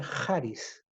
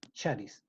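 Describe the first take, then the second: First: "charis" said KHA-ris, with a harsh throat sound like the Spanish j at the start; "charis" opening with the j of "jota"; "charis" with a rasped kh, not sh; proper Greek sound. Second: "charis" said SHA-ris, with a soft sh at the start, quiet and low; "charis" opening with sh, like "sha"; sh-sound reading. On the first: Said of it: "fonéticamente hablando, se pronuncia". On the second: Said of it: "también se puede leer como". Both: Shown as a demonstration.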